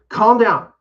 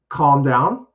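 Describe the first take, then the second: First: It is said loudly, with crisp enunciation. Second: It is said quietly, without extra force.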